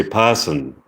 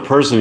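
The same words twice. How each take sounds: First: "person" as pah-sun, no R; British person. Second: Said in the usual way. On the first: Shown as a demonstration. Contrasting with American speech, British "person" like pah-sun. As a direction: open the first vowel of "person", drop the R. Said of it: "you say". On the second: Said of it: "So instead of".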